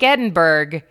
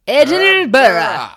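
First: The name is said the way it is spelled. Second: The name is not said the way it is spelled. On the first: The speaker calls it wrong. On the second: The speaker calls it right.

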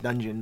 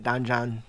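First: The two syllables are run together quickly. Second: The two syllables are said slowly and separately. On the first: It sounds like the word dungeon. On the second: It sounds like a person's name.

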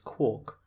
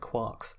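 First: The vowel sounds like 'or' in fork. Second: The vowel sounds like 'ar' in car. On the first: The speaker calls it wrong. "you can't pronounce quark as quark, or it doesn't rhyme" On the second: The speaker calls it right. "I'm going to pronounce it quarks, and this is correct"

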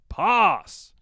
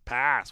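First: The word is said in a heightened British accent. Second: The word is said in an American accent. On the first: The speaker calls it right. "It's the heightened RP, damn it" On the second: The speaker calls it wrong. "What is pass? So American"

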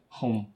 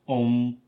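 First: The word begins with an H sound. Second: The word begins with a vowel, no H.

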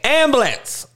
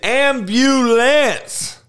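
First: The middle u sound is dropped. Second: The middle u sound is pronounced. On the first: The speaker calls it wrong. "It ain't ambulance" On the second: The speaker calls it right. "Make sure you don't just fucking leave the you out"

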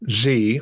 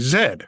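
First: The letter is said the American way, zee. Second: The letter is said the Canadian way, zed.

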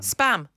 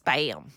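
First: It is said in a British accent. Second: It is said in an American accent.

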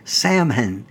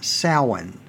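First: It is said much like the word salmon. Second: It is said like sow followed by in. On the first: The speaker calls it wrong. "I would pronounce the word as Samhain, closer to salmon" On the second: The speaker calls it right. "rather than Samhain"

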